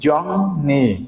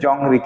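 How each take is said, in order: First: The second syllable starts with an n sound. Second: The second syllable starts with an r sound. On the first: The speaker calls it right. "এর উচ্চারণ হবে কি জংনি" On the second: The speaker calls it wrong. "উচ্চারণ হওয়ার কথা ছিল কি জংরি"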